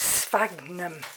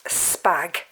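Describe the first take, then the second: First: The 'ph' is said as an F sound. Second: The 'ph' is said as a P sound. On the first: The speaker calls it right. "it's sphagnum. You change the ph to an F" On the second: The speaker calls it wrong. "you don't say sphagnum"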